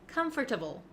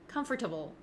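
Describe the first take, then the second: The two takes are said the same way.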